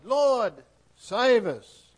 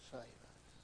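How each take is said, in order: First: Loud, high plea for rescue; urgent loud prayer; crying out. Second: Hushed, breathy prayer; soft intimate plea to God; whispered plea. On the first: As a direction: cry it out from the storm. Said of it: "they cried". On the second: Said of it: "cry out to the God who loves us". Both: Acted.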